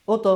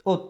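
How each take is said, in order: First: "ওত" with a pushed, echoed ত, like "ও-তো"; qalqalah bounce. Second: "ওত" ending on a closed ত; without qalqalah. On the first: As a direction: bounce the ত of "ওত" into a second beat. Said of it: "একটু ধাক্কা হবে". (ধাক্কা দিয়ে "ওত") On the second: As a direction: say "ওত" as one beat, no echo. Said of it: "এটা হবে না". (ঝটকা ছাড়া "ওত") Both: Shown as a demonstration.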